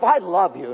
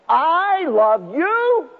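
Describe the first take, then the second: First: It is said sharply and grudgingly. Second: It is said warmly and affectionately. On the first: The speaker wants to be left alone. "that comes across like horseradish" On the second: The love is sincerely meant. "But how do I say that?"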